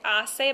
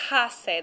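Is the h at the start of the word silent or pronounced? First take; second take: silent; pronounced. First: The word starts with a silent h. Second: The word starts with an audible h. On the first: The speaker calls it right. "It's just a silent letter" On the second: The speaker calls it wrong. "you're not going to say hace. There's no H sound like that"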